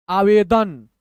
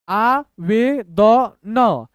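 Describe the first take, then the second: First: Said in the usual way. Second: Very slow, every letter separate; syllable by syllable. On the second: Shown as a demonstration. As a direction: spell out the sounds with gaps. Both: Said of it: "तोड़ तोड़ के पढ़िए".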